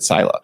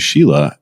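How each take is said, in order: First: The name begins with a plain s sound. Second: The name begins with an sh sound. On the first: This is how someone unfamiliar with the name reads it. "a layman like myself would see your name and pronounce it, you know, like I did" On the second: This is how people familiar with the name say it. "people probably are used to calling you Sheila"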